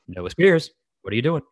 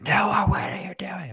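First: It is firm and raised, but not shouted. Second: It is shouted loudly.

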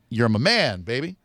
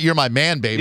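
First: There is a pause before baby. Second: It runs straight into baby without pause.

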